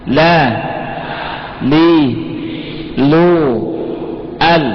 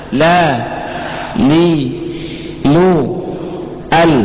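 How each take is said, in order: The two takes are said the same way.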